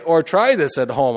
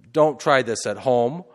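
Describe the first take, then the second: First: The correction, with try hit hard; stress on try. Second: Don't pushed up with a rising end; don't try this at home, with the weight on don't; stress on don't. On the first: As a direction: try said louder and higher. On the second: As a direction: lean on the word don't. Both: Shown as a demonstration.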